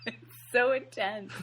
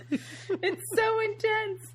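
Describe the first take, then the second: First: Said in the usual way. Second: It's so intense, drawn out high and slow; high, slow mock-dramatic. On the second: Shown as a demonstration. Podcast host echoing herself, high and slow. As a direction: stretch it up high like a melodrama.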